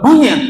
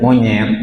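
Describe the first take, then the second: First: It is said in a harsh, angry tone. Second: It is said in a calm, ordinary tone. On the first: It offends the listener. "itu kan beda tuh tanggapannya" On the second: It causes no offence. "Biasa saja tuh"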